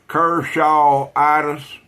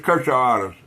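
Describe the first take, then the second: First: The word is said slowly. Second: The word is said fast.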